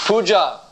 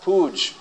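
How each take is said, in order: First: The word ends with a final vowel. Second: The word ends on the consonant. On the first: The speaker calls it right. "Puja, not pooj" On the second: The speaker calls it wrong. "not pooj. I'm told pooj has another meaning"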